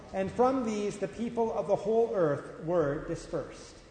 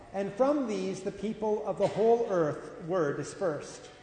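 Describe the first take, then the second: No difference in how they are said.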